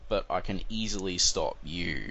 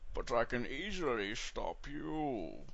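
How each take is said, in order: First: It is said in his normal voice. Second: It is said in a put-on Bane voice.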